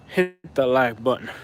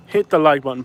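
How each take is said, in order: First: Slow country drawl on "like button"; country accent. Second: Said in the usual way. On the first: Pretend. Streamer asking viewers for likes in a slow country accent. Repeats plea in country-style vowel.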